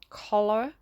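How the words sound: It is said in an American accent.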